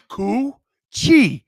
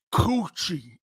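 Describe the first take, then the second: First: "Coochie" with the "Cooch" punched loud; stress on first syllable. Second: Said in the usual way. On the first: Shown as a demonstration. Host stresses the first syllable for his co-hosts, loud. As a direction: hit "Cooch" hard, let "ie" fall. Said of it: "First syllable". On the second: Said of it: "This is how I see it".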